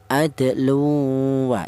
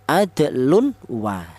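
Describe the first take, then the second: First: The n sound merges straight into the w. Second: The n sound is said clearly before w. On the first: The speaker calls it right. "Yang betul langsung tanwin ini langsung menyatu ke huruf wawu" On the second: The speaker calls it wrong. "dibaca idhar atau dibaca jelas, tidak boleh"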